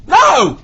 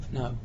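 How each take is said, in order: First: Loud, high-pitched burst of NO; blurted refusal. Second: Small, soft thought-to-self no; inward refusal. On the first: Offered a trip upstairs, mouth blurts loud refusal. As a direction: let it burst out at full volume. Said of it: "My mouth goes". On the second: Man thinking it over silently, quiet refusal. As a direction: keep the no under your voice. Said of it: "And I think". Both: Retold or imitated.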